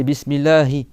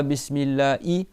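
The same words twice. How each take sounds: First: BISMILLAHI with a light breathed "hi" at the end; correct Ha. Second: BISMILLAHI ending "laa-i", no h at all; missing Ha. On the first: Teacher gives the correct Ha, breathed h. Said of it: "c'est Bismillahi". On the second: Teacher shows a wrong Ha, h left out. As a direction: drop the h from Bismillahi. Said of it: "c'est pas". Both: Shown as a demonstration.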